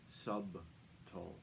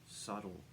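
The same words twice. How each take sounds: First: The b is pronounced, like in sub. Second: The b is silent, sounding like suttle. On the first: The speaker calls it wrong. "mispronounced subtle, as in sub sandwich or submarine" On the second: The speaker calls it right. "Subtle is correct"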